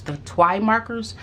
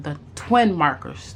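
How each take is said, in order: First: TWI said "twy", rhyming with why; corrected pronunciation. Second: TWIN said with a short i and final n; first pronunciation. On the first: Vlogger correcting the product name, corrected pronunciation. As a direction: say "Twi" with a long eye sound, no final n. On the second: Vlogger naming the markers she ordered, first pronunciation. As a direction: say "twin" as in twin beds. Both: Real, not acted. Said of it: "T W I markers".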